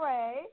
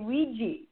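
First: The name rhymes with the word ray. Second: The name sounds like wee-ja, with two syllables. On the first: "It's pronounced like a ray of sunshine" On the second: "most people here in North America say Ouija"

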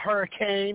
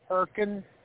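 First: It is said the way it is spelled. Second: It is said the local way, not as spelled. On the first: The speaker calls it wrong. "not Hurricane. I don't care what it says" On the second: The speaker calls it right. "there's a place called Hurricane"

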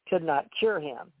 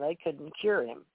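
First: 'Could not' is said as two full words. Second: 'Could not' is shortened to 'couldn't'.

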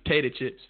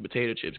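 First: The first syllable of potato is dropped. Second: The first syllable of potato is pronounced.

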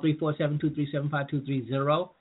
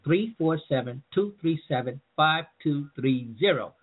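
First: The number is said at a quicker pace. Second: The number is said at a slower pace.

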